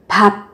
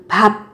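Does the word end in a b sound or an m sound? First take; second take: b sound; b sound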